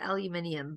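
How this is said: It is said the British way, with five syllables. "Like I know we call it aluminium"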